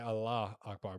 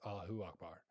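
First: Allah runs straight into Akbar with no extra vowel. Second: An extra 'u' vowel follows Allah before Akbar. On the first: The speaker calls it wrong. "A lot of people say Allah Akbar" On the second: The speaker calls it right. "the actual pronunciation is Allahu Akbar"

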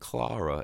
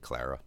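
First: The name is said with a foreign, non-American pronunciation. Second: The name is said with an American pronunciation. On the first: This is how it is said in the film. "as they say in there" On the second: This is the speaker's own habitual way of saying it. "with my American accent, I'm probably just going to say Clara"

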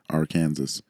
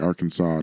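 First: The ending sounds like the word 'Kansas'. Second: The ending does not sound like 'Kansas'. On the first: It uses an English word with another meaning. The speaker calls it wrong. "not Arkansas. Because Kansas is an English word" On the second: It follows the name of the native tribe. The speaker calls it right. "That's why we say Arkansas"

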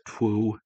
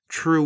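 First: The word starts with a cartoonish 'tw' sound. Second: The word starts with a plain 'tr' sound. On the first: "Some people will pronounce it twoo, or, you know, kind of like the best Bugs Bunny voice" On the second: "it sounds like I just said true"

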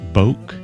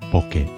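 First: The word is pronounced the English way. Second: The word is pronounced the Japanese way. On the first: The speaker calls it wrong. "And not boke. That's probably the more natural way for English speakers" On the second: The speaker calls it right. "The correct pronunciation is bokeh"

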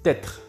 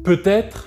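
First: The first vowel is dropped, squeezing the syllables. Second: Both syllables are fully pronounced.

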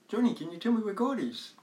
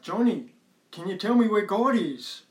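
First: It is asked in a calm, normal voice. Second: It is asked in a somewhat raised voice.

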